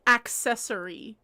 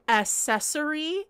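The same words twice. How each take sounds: First: Accessory said "ak-sessory", with the k; correct pronunciation. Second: Accessory said as "assessory", no k sound; common mispronunciation. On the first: Shown as a demonstration. Streamer correcting a pet-peeve word, pronounced with the k. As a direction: sound the k in accessory: "ak-SESS-ory". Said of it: "It's accessory". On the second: Retold or imitated. Streamer showing how people say it wrong, mispronounced. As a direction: drop the k in accessory, starting "ass-". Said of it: "grinds my gears when people say".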